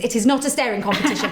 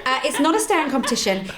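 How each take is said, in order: First: Lightly punched not, quick and laughing; not hit with a laugh; stress on not. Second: Not pushed slightly, quick; brisk correction with not stressed. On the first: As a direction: it is NOT a staring competition, said fast. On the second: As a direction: repeat it firmly but lightly. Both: Shown as a demonstration. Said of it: "I should specify".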